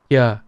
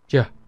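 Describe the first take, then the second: First: The consonant is a gliding y sound. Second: The consonant is a j-like sound. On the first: This is the Southern pronunciation. "the Southern pronunciation, all of the time, uh, they would pronounce it as yeah" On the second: This is the Northern pronunciation. "Versus the Northern accent as ja"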